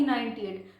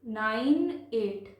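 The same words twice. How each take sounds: First: Said in the usual way. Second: "nine एट" very slow, each digit separate; teacher's drawn-out demo of "nine एट". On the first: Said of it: "ना कि ninety एट". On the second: Shown as a demonstration. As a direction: stretch "nine", then place "एट" on its own. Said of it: "पढ़ते हैं".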